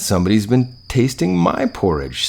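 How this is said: It is said in a medium, middle-sized voice. "said the Mother Bear in her middle-sized voice"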